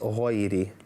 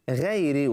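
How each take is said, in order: First: The first consonant is heavy, with a full mouth. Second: The first consonant is light, with an empty mouth. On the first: The speaker calls it right. "when it's" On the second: The speaker calls it wrong. "they say"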